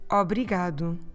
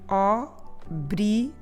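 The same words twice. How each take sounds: First: The word is said quickly. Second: The word is said slowly.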